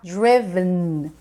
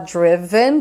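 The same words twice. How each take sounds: First: The final syllable's vowel is dropped entirely. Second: The final syllable's vowel is clearly pronounced. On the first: "comer o final" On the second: "do jeito que é bem escrito assim"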